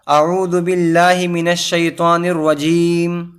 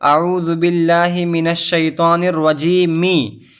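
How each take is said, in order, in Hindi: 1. आख़िरी शब्द बिना स्वर की 'm' आवाज़ पर ख़त्म होता है। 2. आख़िरी शब्द छोटी 'i' स्वर पर ख़त्म होता है। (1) "हमें उस ज़ेर को नहीं पढ़ना है बल्कि मीम पर जज़्म दे देना है" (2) "जैसे यहाँ पर नीचे लिखा हुआ है"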